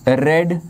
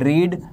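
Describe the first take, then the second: First: The vowel is short, as in red. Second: The vowel is long, as in reed. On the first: It is the past or past participle form. "Second form रेड होती है" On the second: It is the base form of the verb. "पहली form रीड होती है"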